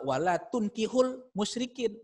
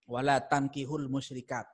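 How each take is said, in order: First: "tunkihul" with dammah u on the ta, slowly; teacher modelling "tunkihul" with a u sound; dammah reading. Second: "tankihul" with fathah a on the ta; teacher modelling "tankihul" with an a sound; fathah reading. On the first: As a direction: read "Wala tunkihul musyrikin" with tun-, slow. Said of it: "domah taknya". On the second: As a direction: read "Wala tankihul musyrikat" with tan-. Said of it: "Kalau yang pertama, bacanya itu fathah taknya". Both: Shown as a demonstration.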